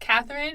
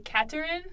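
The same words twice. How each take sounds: First: The middle sound is a 'th' sound. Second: The middle sound is not a 'th' sound. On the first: This is the usual English pronunciation. "my full name is Catherine" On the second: This is how a native French speaker says it. "She does not do the th sound"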